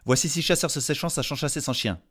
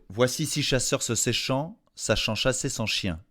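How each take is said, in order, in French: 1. Elle est prononcée au rythme le plus rapide. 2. Elle est prononcée à un rythme lent et posé.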